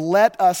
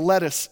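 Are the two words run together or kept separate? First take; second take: separate; run together. First: The two words are kept clearly separate. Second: The two words are run together quickly. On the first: The speaker calls it right. "No, it's the let us statements" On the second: The speaker calls it wrong. "Don't say that too fast"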